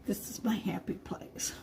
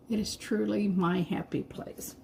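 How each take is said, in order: First: Soft breathy whisper, no voice. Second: Said in the usual way. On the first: Real, not acted. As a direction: whisper it like a secret delight. Painting, whispers her joy.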